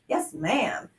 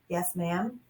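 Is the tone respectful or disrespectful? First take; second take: disrespectful; respectful. First: The tone is rude and dismissive. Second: The tone is polite and respectful. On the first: The speaker is being disrespectful. The speaker calls it wrong. "might not be" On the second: The speaker is showing respect. The speaker calls it right. "would be appropriate"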